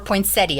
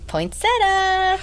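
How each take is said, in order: First: It ends 'set-ee-uh', with four syllables. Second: It ends 'set-uh', with three syllables. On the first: "as some people say" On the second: "But we're doing poinsettia"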